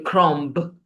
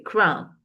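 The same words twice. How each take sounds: First: The final b sound is pronounced. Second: The final b sound is silent. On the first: The speaker calls it wrong. "You don't say crumb" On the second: The speaker calls it right. "the B is silent in the word crumb. ... you just say crumb"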